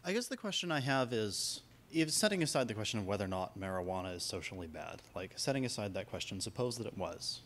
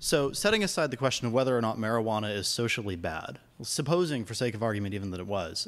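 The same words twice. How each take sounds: First: Soft, low-voiced question; too quiet. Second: Raised voice. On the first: Audience member puts a hypothetical to the panel, too quiet. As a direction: ask it softly, barely carrying across the room. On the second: Audience member repeats the question on request, voice raised a little. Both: Real, not acted. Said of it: "Could you raise your voice just a little bit".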